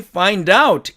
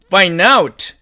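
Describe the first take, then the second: First: The d sound is clearly pronounced. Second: The d sound is dropped. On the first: This is the dictionary pronunciation. "사전식 발음은 find와 out이니까" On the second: This is how native speakers say it. "드가 사라지니까 원어민들은"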